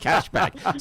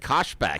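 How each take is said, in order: First: The first vowel sounds like 'cash'. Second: The first vowel sounds like 'cosh'. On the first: The speaker calls it right. "He didn't say cashback" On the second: The speaker calls it wrong. "He couldn't say it right. He said Koshback"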